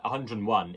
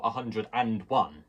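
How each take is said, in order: First: Said in the usual way. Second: "a hundred and one" with a full, emphasised "and"; stress on AND. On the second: Shown as a demonstration. Teacher correcting the English habit, stressed "and". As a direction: hit the "and" between "hundred" and "one". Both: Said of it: "not a hundred and one".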